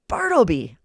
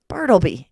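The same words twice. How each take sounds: First: It is roared very loudly. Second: It is called more loudly.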